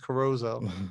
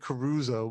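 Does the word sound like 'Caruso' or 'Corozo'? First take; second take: Corozo; Caruso. First: The word sounds like Corozo, with a middle z. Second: The word sounds like the singer's name Caruso. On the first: The speaker calls it right. "but I know it's Corozo" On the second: The speaker calls it wrong. "I always mess it up. I say Caruso"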